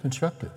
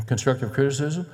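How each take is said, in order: First: "Constructive" singled out softly, pitched up; stress on Constructive. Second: "criticism" given the emphasis; stress on criticism. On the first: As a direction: set "Constructive" apart as the key word. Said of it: "What word is she under-, underlining?". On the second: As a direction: lean on the word "criticism", rising. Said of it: "I underline the word criticism". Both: Shown as a demonstration.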